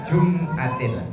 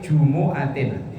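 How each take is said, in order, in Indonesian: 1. Tidak ada vokal di antara jum dan atin. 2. Ada vokal u tambahan setelah jum.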